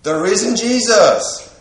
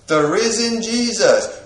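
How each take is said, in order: Both takes have the same delivery.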